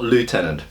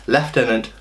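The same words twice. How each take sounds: First: It is said with an American pronunciation. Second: It is said with a British pronunciation. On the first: The speaker calls it wrong. "not lieutenant" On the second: The speaker calls it right. "You should be saying lieutenant"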